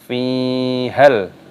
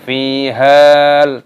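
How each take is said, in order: First: The vowel after the h is short. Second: The vowel after the h is drawn out long. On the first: The speaker calls it right. "maka tidak dibaca panjang, langsung fihal" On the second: The speaker calls it wrong. "Jadi jangan dibaca fihal, tidak seperti itu"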